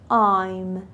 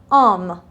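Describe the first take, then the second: First: The vowel is a full 'eye' sound. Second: The vowel is a short 'ah' sound. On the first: "پس میگم I'm" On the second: "اما تلفظ آم هم درسته"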